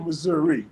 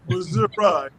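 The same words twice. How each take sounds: First: It is said the way outsiders say it. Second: It is said the way true locals say it.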